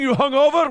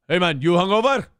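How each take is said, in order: First: High, loud accusing yell; berating boss. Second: Loud, friendly teasing question; jovial boss. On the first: Mimicking the owner at a woman who messed up, angry yell. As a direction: imitate a boss hurling the question as an attack. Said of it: "if a girl fucked up, he'd be like". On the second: Owner ribbing a male server on Saturday morning, jovial. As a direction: rib a buddy heartily, imitating the boss. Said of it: "it'd be jovial". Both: Retold or imitated.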